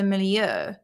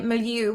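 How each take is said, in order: First: It is said with a French-style British pronunciation. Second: It is said with an American pronunciation. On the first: "British like stick to the um, French pronunciation, which is the milieu" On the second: "So Americans would say milieu"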